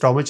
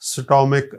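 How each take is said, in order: First: The word ends with a ch sound. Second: The word ends with a k sound. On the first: The speaker calls it wrong. "इसे स्टोमिच नहीं कह सकते" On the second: The speaker calls it right. "का स्टोमिक"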